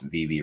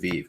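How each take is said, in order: First: The name ends with a clear second vowel. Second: The name ends without a second vowel. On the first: The speaker calls it right. "I didn't even pronounce Vivi right at the time" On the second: The speaker calls it wrong. "I just pronounced it Vive"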